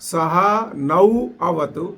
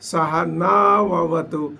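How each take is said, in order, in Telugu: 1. పదాలను ఒక్కొక్కటిగా పలుకుతారు. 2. పదాలు కలిసి ఒకే ప్రవాహంగా ఉంటాయి. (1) "ఆ శబ్దాలను విడదీసి" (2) "సంధిపూర్వకంగా చదివితే"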